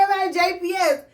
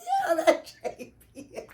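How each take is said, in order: First: Higher and louder, stressing the answer; insistent repeat. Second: Higher, giggling quote of herself; laughing through the line. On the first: Teller repeating her answer to the nurse, insistent and louder. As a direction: insist on it like it's obvious. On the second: Teller quoting herself to the nurse, laughing through it. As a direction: say it while cracking up. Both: Retold or imitated.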